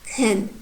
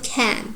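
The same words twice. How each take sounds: First: The vowel is reduced and weak. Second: The vowel is full and unreduced. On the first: The speaker calls it right. "I pronounce it like can" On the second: The speaker calls it wrong. "not can"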